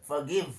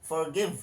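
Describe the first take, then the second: The two takes are said the same way.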